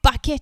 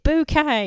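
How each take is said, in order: First: It is said like the word bucket. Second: It is said like boo-kay, French style. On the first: The speaker calls it wrong. "It's not bucket" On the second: The speaker calls it right. "it's bouquet"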